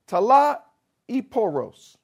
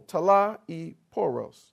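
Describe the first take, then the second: First: Slow careful Greek talaiporos; Greek word. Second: Talaiporos with weight on the middle syllable, slow; slow talaiporos, middle syllable stressed. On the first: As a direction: say talaiporos slowly, syllable by syllable. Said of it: "I'm gonna do my best". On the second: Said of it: "the emphasis is on the middle syllable". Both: Shown as a demonstration.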